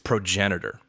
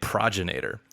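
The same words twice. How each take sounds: First: The ending rhymes with 'senator'. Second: The ending rhymes with 'Terminator'. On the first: The speaker calls it right. "It instead rhymes with senator" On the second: The speaker calls it wrong. "it does not rhyme with Terminator"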